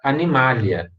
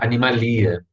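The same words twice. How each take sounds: First: The stress is on the syllable ma. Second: The stress is on the syllable li. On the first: The speaker calls it right. "A tônica vai estar no anterior. E aí vocês vão pronunciar animalia" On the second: The speaker calls it wrong. "Não vão pronunciar animalia. Aí tá, tá errado"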